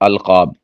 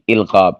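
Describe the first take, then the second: First: The first vowel is an 'a' sound. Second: The first vowel is an 'i' sound. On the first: The speaker calls it right. "हमज़ा के ज़बर के साथ है अलकाब" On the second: The speaker calls it wrong. "इल्काब ये गलत है"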